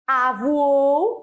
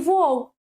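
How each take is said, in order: First: An extra vowel sound is added at the start. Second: The word starts directly with the v sound. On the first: This is a regional variant. "aumento de fonema no início do vocábulo" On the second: This is the standard form. "em vez de voou"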